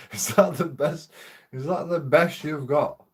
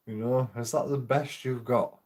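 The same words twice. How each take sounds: First: Higher, mocking dare; taunting challenge. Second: Said in the usual way. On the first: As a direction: goad him like a heckler. Taunting police in retold quarrel.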